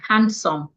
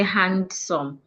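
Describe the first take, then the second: First: The d sound in the middle is silent. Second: The d sound in the middle is pronounced. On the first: The speaker calls it right. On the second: The speaker calls it wrong.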